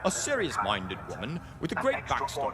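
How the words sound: It is said in a put-on British accent. "That's not really the right British accent"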